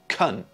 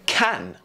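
First: The word has a short, reduced vowel. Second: The word has a full, clear vowel.

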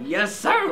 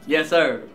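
First: It is said in a loose, hyped-up way. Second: It is said in a restrained, respectful way. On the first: Inner excitement and agreement. "I didn't say it like that" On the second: Polite respect. "very respectfully"

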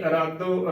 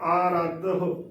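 First: The word starts with a short a vowel. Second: The word starts with a long aa vowel. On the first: The speaker calls it wrong. "ਅਰਾਦੋ ਗਲਤ ਉਚਾਰਨ ਹੋਵੇਗਾ" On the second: The speaker calls it right. "ਐੜੇ ਨੂੰ ਕੰਨਾ, ਰਾਰੇ ਨੂੰ ਕੰਨਾ, ਧੱਦਾ ਹਾਏ ਨੂੰ ਔਂਕੜ"

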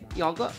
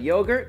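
First: It is said in a British pronunciation. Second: It is said in an American pronunciation.

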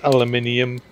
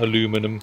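First: It is said the non-American way, ending in -inium. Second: It is said the American way, ending in -inum. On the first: The speaker calls it right. "it is aluminium in this game" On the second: The speaker calls it wrong. "I know Americans say aluminum"

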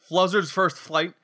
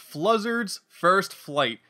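First: The phrase is said quickly, nearly slurred. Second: The phrase is said slowly and carefully. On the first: The speaker calls it wrong. "I kind of got it. But it's too much" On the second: The speaker calls it right. "Had to say that slowly"

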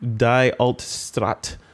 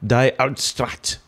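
First: It is said plainly, without a throaty German sound. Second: It is said with a throaty German sound.

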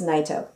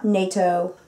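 First: The first syllable sounds like night. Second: The first syllable sounds like nay. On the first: The speaker calls it right. "it's like night with an O at the end" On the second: The speaker calls it wrong. "It's not Naito. I'm not the Peace Treaty Organization"

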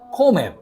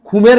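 First: The first vowel sounds like 'o'. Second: The first vowel sounds like 'u'. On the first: The speaker calls it right. "বলতেছি কি খমের ও" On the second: The speaker calls it wrong. "খুমের না বলে"

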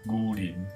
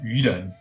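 First: It is read in a Tang-era pronunciation. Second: It is read in the Mandarin pronunciation. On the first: "如果是唐朝的话" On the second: "如果是普通话是愚人"

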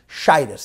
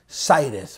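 First: The word begins with an sh sound. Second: The word begins with an s sound. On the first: This is the pronunciation that was habitually used. "The Rebbe used to say shidus" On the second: This is the pronunciation that was avoided. "The Rebbe didn't say sidus"

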